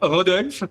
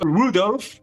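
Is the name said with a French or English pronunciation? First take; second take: French; English. First: The name is said with French pronunciation. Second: The name is said with English pronunciation. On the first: This is how the name should be said. "au lieu de dire Rodolphe" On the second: This is how the court official said it. "c'est euh, Rudolph"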